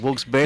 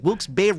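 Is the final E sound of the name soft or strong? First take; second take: soft; strong. First: The final E sound is softened and light. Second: The final E sound is full and clear. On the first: "I sometimes try to soften the E at the end" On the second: "instead of like"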